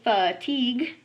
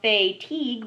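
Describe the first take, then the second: First: The first syllable is said the ordinary way. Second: The first syllable is said as 'fay'. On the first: It is how the word is normally spoken. "but we say fatigue" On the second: It is a spelling aid, not normal speech. "we think to spell fatigue"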